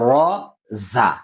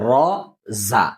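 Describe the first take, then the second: Both takes have the same delivery.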